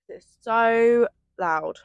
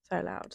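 First: It's so loud, slow, stressed SO; stretched out. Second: So loud, low and quiet; quiet aside. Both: Real, not acted.

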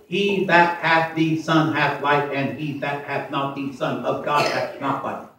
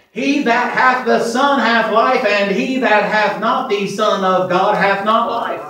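First: Slow, quieter second reading; scripture read softly. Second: Slow, loud, higher scripture proclamation; preached scripture. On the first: Preacher repeating the verse, slow and quieter. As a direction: read it again calmly, word by word. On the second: Preacher to congregation, a slow loud scripture proclamation. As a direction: proclaim the verse slowly with force. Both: Acted.

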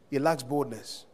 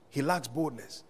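No difference in how they are said.

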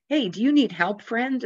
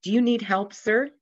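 First: Calling out. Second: Mock yell. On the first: Retold or imitated. Fisherman calls to drowning preacher. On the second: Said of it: "the captain yelled".

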